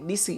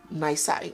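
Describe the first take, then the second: First: The word is given its Latin pronunciation. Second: The word is given its English pronunciation. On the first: "Nisi is the Latin pronunciation" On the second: "but in English it's pronounced nisi"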